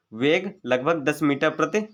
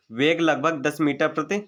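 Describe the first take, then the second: No difference in how they are said.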